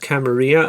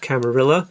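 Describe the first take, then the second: First: It is said in a non-English way. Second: It is said in an English way. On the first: The speaker calls it right. "The proper way of pronouncing that word" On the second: The speaker calls it wrong. "mispronounce it as ... the very English way of doing things"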